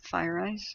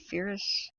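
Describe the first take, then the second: First: The first syllable sounds like 'fire'. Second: The first syllable sounds like 'fair'. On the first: "I think you pronounce it FireEye" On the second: "Some people say Ferris"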